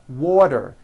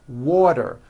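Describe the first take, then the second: No difference in how they are said.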